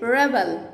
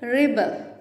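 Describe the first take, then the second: First: The first syllable sounds like 'reb'. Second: The first syllable sounds like 'rib'. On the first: The word is used as a noun. "It's noun" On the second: The word is used as a verb. "వర్బ్గా use చేయాలనుకోండి"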